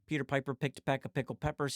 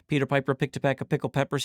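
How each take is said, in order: First: The voice is recorded ten decibels quieter. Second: The voice is recorded at full level. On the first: "going to negative ten" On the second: "let's test it out"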